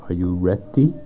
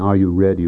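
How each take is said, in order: First: The middle consonant of ready is a clear T. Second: The middle consonant of ready is a soft flap. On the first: "with a T" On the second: "Instead of saying"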